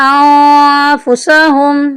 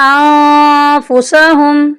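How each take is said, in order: Both takes have the same delivery.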